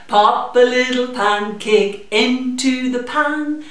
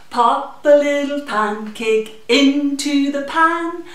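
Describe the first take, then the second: No difference in how they are said.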